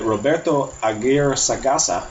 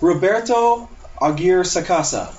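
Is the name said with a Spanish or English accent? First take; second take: Spanish; English. First: The name is said with a Spanish-style accent. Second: The name is said with a plain English accent. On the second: "Is that okay?"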